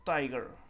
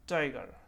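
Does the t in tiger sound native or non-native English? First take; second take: native; native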